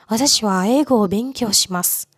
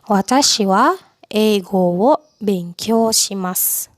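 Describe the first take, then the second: First: The sentence is spoken fast. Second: The sentence is spoken slowly. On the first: "Itu cepat"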